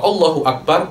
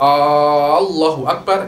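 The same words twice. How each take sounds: First: The first vowel of Allah is short. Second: The first vowel of Allah is drawn out long. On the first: It states that God is the greatest. The speaker calls it right. "mubtada khobar" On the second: It asks whether God is the greatest. The speaker calls it wrong. "tidak boleh Anda memanjangkan hamzah"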